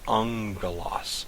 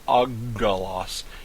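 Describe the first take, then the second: First: The middle consonant is an ng sound. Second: The middle consonant is a plain g sound. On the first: The speaker calls it right. "it's ungalos" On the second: The speaker calls it wrong. "It's not uggalos"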